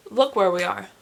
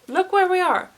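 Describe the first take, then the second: First: Said in the usual way. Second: High, loud dismay at the mirror; louder shocked take. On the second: Acted. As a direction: gasp it out, horrified. Same line, louder higher take.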